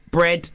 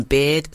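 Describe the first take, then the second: First: "bread" said with a clear br- cluster, the corrected word; bread, not beard. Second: Said in the usual way. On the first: Shown as a demonstration. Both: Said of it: "It, it, it says bread".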